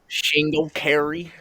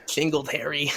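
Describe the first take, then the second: First: Shingle carry with sh sound, stretched slowly; mispronounced Singletary. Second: Singletary said plainly with clear s; Singletary, correcting the name. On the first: Retold or imitated. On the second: Real, not acted.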